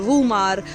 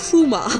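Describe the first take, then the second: First: It starts with V and ends with r. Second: It starts with F and has no final r. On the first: This is how people from Asia say it. "Asian countries में आर हम लोग प्रॉपरली बोलते हैं" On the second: This is how local Dutch people say it. "इसको बोलते हैं फूमा"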